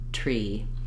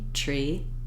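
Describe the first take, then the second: No difference in how they are said.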